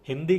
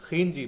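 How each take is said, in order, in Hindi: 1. यह सादा h ध्वनि से शुरू होता है। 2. यह खरखरी kh ध्वनि से शुरू होता है।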